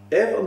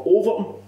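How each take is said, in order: First: "Everton" said clearly with an E, like the big club; the name as he first heard it, "Everton"; misheard name. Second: "Overton" with an O, not Everton; corrected name. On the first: Retelling what he thought the goalie said, "Everton" as the club. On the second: Goalie correcting the manager, "Overton" with an O. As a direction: stress the O of "Overton". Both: Retold or imitated. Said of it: "No, Overton".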